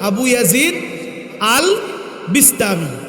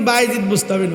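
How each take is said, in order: First: The name is said in its full form. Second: The name is said in a shortened form. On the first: This is the form used in books. The speaker calls it right. "এটা হলো কিতাবের ভাষা" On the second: This is the form people commonly use. The speaker calls it wrong. "নামটা কিন্তু বাইজিদ বুস্তামি নয়"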